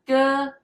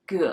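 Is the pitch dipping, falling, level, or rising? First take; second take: level; dipping. First: The pitch stays high and level. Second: The pitch dips low, then rises again. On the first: It means brother. "the first one, ge, it's brother" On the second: It means boat. "The third one, ge, is boat"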